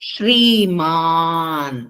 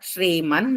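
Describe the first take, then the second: First: The second vowel is held long. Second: The second vowel is cut short. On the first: The speaker calls it right. "శ్రీమాన్ మాకు దీర్ఘాక్షరం" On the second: The speaker calls it wrong. "అందరూ కూడా శ్రీమన్ నారాయణ అనేస్తారు, చాలా తప్పు"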